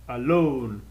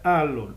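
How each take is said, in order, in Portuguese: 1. A tônica está na última sílaba. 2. A tônica está na primeira sílaba. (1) "ele é alone ... a sílaba tônica é ... a última" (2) "ele não é alone"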